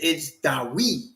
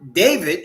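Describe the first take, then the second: First: The middle consonant is a W sound. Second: The middle consonant is a V sound. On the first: "Where you see a V, it's the sound U" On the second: "when it says David"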